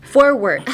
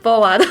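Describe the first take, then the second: First: "forward" with both r's fully sounded; English r sounds. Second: "forward" said "fo-wado", without r sounds; Japanese-style forward. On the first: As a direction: say "forward" as for-werd, round r's. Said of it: "It is forward". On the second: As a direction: say "forward" wrongly as fo-wa-do. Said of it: "It is not forward". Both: Shown as a demonstration.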